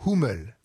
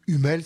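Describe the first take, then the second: First: "Hummel" with a breathed H and "oo" vowel; "Hummel" as in German, H sounded, u like "ou"; German pronunciation. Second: "Hummel" with silent H and French u; "Hummel" à la française, no H, u as in "lune"; French pronunciation. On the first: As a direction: say "Hummel" the German way, as HOO-mel. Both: Shown as a demonstration. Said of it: "si vous le prononcez à la française".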